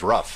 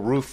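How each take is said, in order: First: The word is said in a regional way. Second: The word is said in the standard way. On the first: "when I was growing up, it was a rough" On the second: "the whole roof versus rough"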